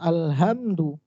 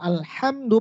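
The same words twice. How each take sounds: First: The h is not made in the middle throat. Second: The h is made in the middle throat. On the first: Destruction belongs to God. The speaker calls it wrong. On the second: All praise belongs to God. The speaker calls it right.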